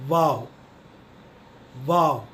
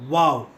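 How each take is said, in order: First: वाव with a V, not a W; V pronunciation. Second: वाव begun with rounded lips; वाव with a W, not a V; W pronunciation. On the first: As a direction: say वाव as vaw. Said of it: "अपने नीचे वाले होठ को". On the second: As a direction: say वाव like English "wow". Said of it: "गोल तरीके से". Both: Shown as a demonstration.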